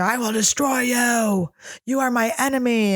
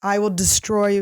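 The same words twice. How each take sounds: First: A retold screaming threat, stretched out; mock scream. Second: Said in the usual way. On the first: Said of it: "He screamed at me". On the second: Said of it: "he said".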